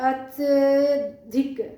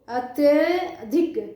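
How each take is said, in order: No difference in how they are said.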